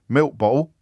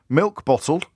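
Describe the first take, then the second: First: The consonants in bottle are dropped. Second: The consonants in bottle are fully sounded.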